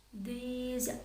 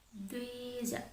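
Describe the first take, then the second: No difference in how they are said.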